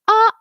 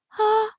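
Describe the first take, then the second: First: The vowel starts with a hard catch in the throat. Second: The vowel starts with an airy puff of breath. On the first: "That would be glottal, too much" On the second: "We also don't want breathy"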